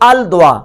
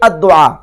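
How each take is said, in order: First: The L of the article is clearly pronounced. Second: The L merges into a doubled D sound. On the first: "अद्दुआ यानी अल दुआ" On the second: "तो उसको पढ़ेंगे अद्दुआ"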